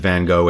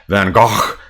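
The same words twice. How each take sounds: First: The name is said with an American pronunciation. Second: The name is said imitating a Dutch pronunciation. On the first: The speaker calls it wrong. "if you are Dutch, you don't pronounce it Van Gogh" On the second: The speaker calls it right. "It's more like Van Gogh. I can't quite do the accent"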